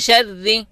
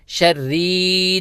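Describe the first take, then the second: First: The r sound is kept short. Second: The r sound is drawn out long. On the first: The speaker calls it right. "एक हरकत की मिकदार" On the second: The speaker calls it wrong. "रॉ को खींचना नहीं है, शर्री नहीं पढ़ना"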